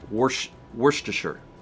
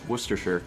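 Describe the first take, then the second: First: The first syllable sounds like 'worsh'. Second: The first syllable does not sound like 'worsh'. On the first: This is how it was said where the speaker grew up. "Growing up, we pronounce it" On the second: This is the standard pronunciation. "Correct, correct pronunciation"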